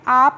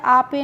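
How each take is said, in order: First: It is said with a long 'aa' vowel, ending in 'p'. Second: It is said with a long 'aa' and an extra final vowel. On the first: "आप नहीं पढ़ते हैं" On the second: "आपे नहीं पढ़ते हैं"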